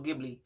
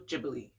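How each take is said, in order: First: Said the way the English spelling suggests. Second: Said differently from how the English spelling suggests. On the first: The speaker calls it wrong. "I used to say Studio Ghibli. It just looked like that" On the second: The speaker calls it right. "the proper pronunciation is"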